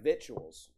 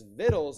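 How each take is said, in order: First: The word is sounded out as it is spelled. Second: The word is said in its short reduced form. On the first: The speaker calls it wrong. "It looks like victuals" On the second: The speaker calls it right. "that's the proper way to pronounce that"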